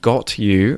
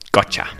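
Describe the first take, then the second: First: Both words are said clearly and separately. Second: The words run together quickly as gotcha. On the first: "someone really enunciating well and saying got you" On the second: "a really quick way of saying, joining these words together"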